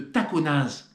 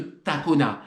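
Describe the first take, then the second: First: The final z sound is pronounced. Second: The final z sound is silent. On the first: The speaker calls it wrong. "non, vous dites pas" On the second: The speaker calls it right. "On ne prononce pas le Z"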